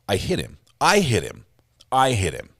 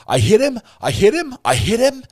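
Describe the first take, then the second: First: It sounds certain, like confirming a fact. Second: It sounds doubtful, like questioning what happened.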